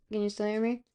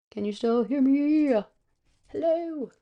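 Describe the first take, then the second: First: Said in the usual way. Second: Louder, drawn-out, rising mic check; higher, stretched-out playful holler; calling out. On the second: Pretend. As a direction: call out slowly to see who hears you.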